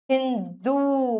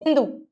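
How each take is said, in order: First: हिंदू slow, with a long held oo; "hin-doooo", last vowel held; drawn-out ū. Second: हिंदू with a short final u; short-u error. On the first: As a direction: stretch the end of हिंदू. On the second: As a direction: cut the last vowel of हिंदू short. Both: Shown as a demonstration. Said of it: "बड़े ऊ की मात्रा".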